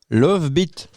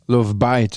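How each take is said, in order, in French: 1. Le titre est prononcé à la française. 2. Le titre est prononcé à l'anglaise.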